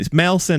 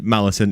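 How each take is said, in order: First: The name is said with two syllables. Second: The name is said with three syllables. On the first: The speaker calls it right. "It's Melson, isn't it? I say I say Melson" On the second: The speaker calls it wrong. "it's not pronounced Mal it, Malison"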